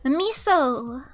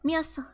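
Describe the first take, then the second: First: It is said with an American accent. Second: It is said imitating a Russian accent.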